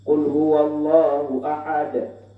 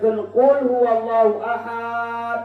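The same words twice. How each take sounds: First: The vowel in ahad is kept short. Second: The vowel in ahad is drawn out long. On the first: God is the one and only. The speaker calls it right. "Maka baik" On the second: God is one among ones. The speaker calls it wrong.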